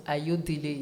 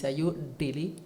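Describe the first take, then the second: First: "Ayodele" with the untoned French-style vowels; the wrong take of "Ayodele"; French-style mispronunciation. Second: "Ayodele" the Yoruba way, ending lifted; the correct take of "Ayodele", rising at the end; native Yoruba pronunciation. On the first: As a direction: say "Ayodele" as French people mistake it. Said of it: "it's not Ayodele". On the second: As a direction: model "Ayodele" as its owner says it. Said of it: "it's Ayodele". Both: Shown as a demonstration.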